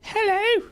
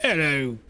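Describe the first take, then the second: First: Much higher falsetto British lady; horrible female UK voice. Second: Lightly voiced British man; male UK voice. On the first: Gamer trying a female British voice, very high falsetto. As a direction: squeak hello like a British lady. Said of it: "that's horrible". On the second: Gamer testing a UK voice, landing on a male one. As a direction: say hello like a plain British bloke. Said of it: "That's a male voice". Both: Shown as a demonstration.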